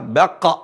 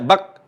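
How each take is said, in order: First: The final consonant is released with an echo. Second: The final consonant stops flat with no echo. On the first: The speaker calls it right. "Yang benar adalah baqqa" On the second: The speaker calls it wrong. "kalau enggak qalqalah itu namanya bak"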